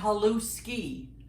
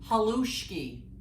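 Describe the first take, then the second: First: The middle consonant is a plain 's' sound. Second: The middle consonant is a 'sh' sound. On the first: "just the S" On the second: "with an S H"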